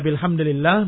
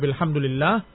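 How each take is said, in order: First: The vowel after hamd is i. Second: The vowel after hamd is u. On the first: The word takes its normal case ending in the sentence. "Yang pertama mura'atul lafzihi" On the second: The phrase is quoted unchanged from its original. "wa tsani mura'atul hikayat"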